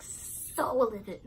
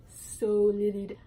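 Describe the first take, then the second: First: Said in the usual way. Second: So livid pushed louder and slower; stressed livid. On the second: Shown as a demonstration. Telling how angry she was, she punches livid. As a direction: lean hard on livid. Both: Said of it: "I was, like".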